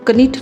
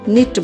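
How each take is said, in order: First: A k sound is heard before the n. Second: The word begins directly with the n sound. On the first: The speaker calls it wrong. "इसको कनिट नहीं बोलेंगे" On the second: The speaker calls it right. "निट बोलेंगे"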